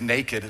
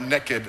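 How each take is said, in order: First: It is said in a standard accent. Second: It is said in a Texan accent.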